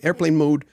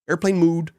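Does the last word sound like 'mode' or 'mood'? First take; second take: mode; mood. First: The last word has an 'oh' vowel, 'mode'. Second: The last word has an 'oo' vowel, 'mood'. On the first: "I go, okay, airplane mode" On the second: "they never say mode, they say mood"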